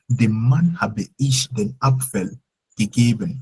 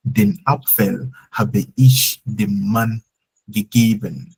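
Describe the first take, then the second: First: Slow, "Dem Mann" up front and stressed; emphasis on the man. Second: Very slow, "Den Apfel" up front and stressed; emphasis on the apple. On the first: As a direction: answer who, leaning on "Dem Mann". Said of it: "Who did you give it to?". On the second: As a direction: lay it out slowly, leaning on "Den Apfel". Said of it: "I want to emphasize on the apple". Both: Shown as a demonstration.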